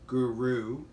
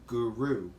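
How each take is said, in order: The two takes are said the same way.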